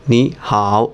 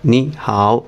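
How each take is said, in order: Both takes have the same delivery.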